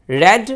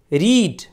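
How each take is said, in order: First: "read" said as red, with a short e; short e sound. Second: "Read" said as reed, with a long ee; long ee sound. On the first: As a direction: say "read" like red, the second form. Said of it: "second form को रेड". ("read" को रेड बोलें, छोटी ए के साथ) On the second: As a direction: say "Read" like reed, the first form. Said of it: "first form को हम रीड पढ़ते हैं". ("Read" को रीड बोलें, लंबी ई के साथ) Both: Shown as a demonstration.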